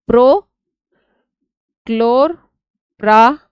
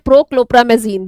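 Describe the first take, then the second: First: The word is split into parts with pauses. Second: The word is said smoothly without any pauses. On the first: "ये pro है ये क्लोर है, कैसे जोड़ना है वो बता रही हूँ।" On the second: "मतलब बोला जाता है"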